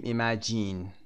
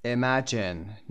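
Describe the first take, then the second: First: ایمجین with full i sounds, "i-ma-JEEN"; wrong full-vowel pronunciation. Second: Imagine with reduced vowels, "ə-MAJ-ən"; weak first and last vowels in Imagine, drawn out slowly; correct schwa pronunciation. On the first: Teacher showing what not to say, full i vowels. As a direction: say a long "jeen" at the end of ایمجین. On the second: Teacher modelling the right form, schwa pronunciation. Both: Shown as a demonstration.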